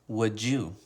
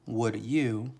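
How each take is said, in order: First: The d and y sounds blend together. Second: The d and y sounds stay separate. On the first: "we change it to" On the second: "with the word you"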